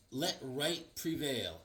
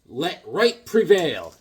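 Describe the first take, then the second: First: "let right prevail" said slowly and much softer; hushed slow "let right prevail"; quiet reading. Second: "Let right prevail" slow and louder, each word weighty; solemn booming "Let right prevail"; grand proclamation. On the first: Rereading hatchet inscription. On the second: Reading hatchet inscription. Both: Acted.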